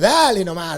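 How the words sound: It is said with strong, forceful emphasis. Stop it, that's enough. "en el otro estoy poniendo un énfasis como diciendo, cortala, terminala"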